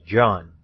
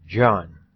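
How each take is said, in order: Both takes have the same delivery.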